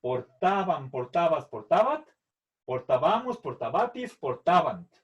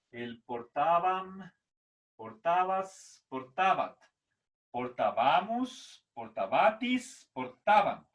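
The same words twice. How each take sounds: First: Portaban, portabas, portabat said with the stress on the a of -ba-, portábamos and portabatis with it on the bá syllable. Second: Portaban and portabas drawn out slowly, each with the stress on the a of -ba-, portábamos with it on bá; slow stressed recitation. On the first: Teacher shows students where the stress falls in each form. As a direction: recite the Latin forms, leaning on the stressed vowel. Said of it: "la fuerza de voz es en la A".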